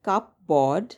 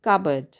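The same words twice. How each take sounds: First: The P sound is pronounced in the middle. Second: The P sound is silent in the middle. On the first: The speaker calls it wrong. "It's spelled cupboard, but that's not how we pronounce it" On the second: The speaker calls it right. "The P is silent"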